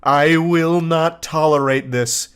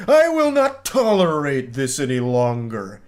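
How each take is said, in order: First: Slow, deliberate ultimatum; mock fury. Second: Slow, hammed-up villain declaration; supervillain fury. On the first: Obsessed fan ending an angry message, mock fury. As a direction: lay down the law word by word, slowly. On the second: Obsessed texter slamming his fist on the desk, supervillain fury. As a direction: stretch it out like a raging supervillain. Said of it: "slamming his fist into his desk".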